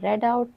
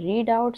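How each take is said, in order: First: The vowel in read is short, like red. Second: The vowel in read is long, like reed. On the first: It is the past form of the verb. "Second" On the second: It is the present form of the verb. "First form होती है"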